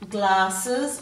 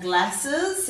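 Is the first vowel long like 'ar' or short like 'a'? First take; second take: long ar; short a. First: The first vowel is a long 'ar' sound. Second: The first vowel is a short 'a' sound. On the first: This is the everyday way of saying it. "the A is making an R sound" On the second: This pronunciation helps with spelling. "if you're saying to spell"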